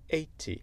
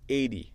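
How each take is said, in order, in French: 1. Le t est un t net et clair. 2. Le t sonne comme un d doux. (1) "et après l'accent britannique" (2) "je vais le dire avec mon accent américain"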